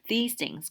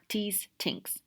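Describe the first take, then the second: First: It is said in a plain native English accent. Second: It is said with a Chinese accent.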